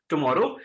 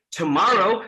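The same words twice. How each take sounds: First: Low "tomorrow" without the American puffed T; non-American accent. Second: "tomorrow" with an airy American T and rolled-back R; American accent. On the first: Trainer shows class what to avoid, non-American accent "tomorrow". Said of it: "not tomorrow". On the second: Trainer contrasts for class, "tomorrow" in an American accent. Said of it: "keep doing the same thing". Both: Shown as a demonstration.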